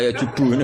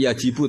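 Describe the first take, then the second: First: "jibu" said as "jubu", with u first; fumbling reader tries "jibu" as "jubu"; unsure reading, u vowel. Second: "jibu" with an i in the first syllable; fumbling reader tries "jibu" with an i; unsure reading, i vowel. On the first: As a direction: swap the i of "jibu" for u, as a second guess. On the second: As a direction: read "jibu" with i, as a nervous reader guessing. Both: Acted. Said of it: "Itu pasti nervous dulu itu".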